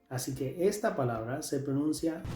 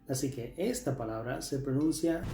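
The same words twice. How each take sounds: Both takes have the same delivery.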